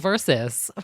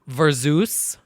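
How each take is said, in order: First: The word ends with a short 'sus' sound. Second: The word ends with a drawn-out 'Zeus' sound. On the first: The speaker calls it right. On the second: The speaker calls it wrong.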